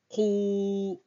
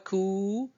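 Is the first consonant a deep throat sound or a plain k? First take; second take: deep throat; plain k. First: It starts with a deep k from the throat. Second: It starts with a plain front k sound. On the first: The speaker calls it right. "c'est plutôt qu" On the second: The speaker calls it wrong. "Ce n'est pas ku"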